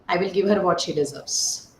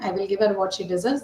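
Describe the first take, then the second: First: It is said in a menacing, threatening tone. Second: It is said as a plain, neutral statement. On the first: The speaker intends to harm her. "If this is the tone, then it is more like a threat" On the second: The speaker promises to give her what is due. "If you're simply making it as an indicative statement"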